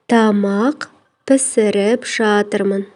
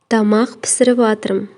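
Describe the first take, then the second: First: The verb is said in its full, uncontracted form. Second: The verb is said in a shortened, contracted form.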